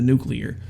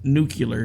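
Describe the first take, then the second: First: It is said in a standard American pronunciation. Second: It is said in a Southern, Texan-style pronunciation. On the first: "instead of nuclear" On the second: "he said uh, the word n- nuclear"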